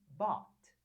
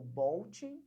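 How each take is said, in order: First: It is said as one short syllable, bot. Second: It is said with an l before the t. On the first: The speaker calls it right. "a pronúncia perfeita de comprei em inglês" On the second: The speaker calls it wrong. "você não acertou"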